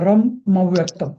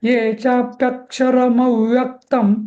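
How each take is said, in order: First: There is a short pause after 'ram'. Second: The syllables run together with no pause. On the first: The speaker calls it wrong. "मच्या तिथे थोडा र नंतर थोडा एक pause घेतला" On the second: The speaker calls it right. "तसंही नाही"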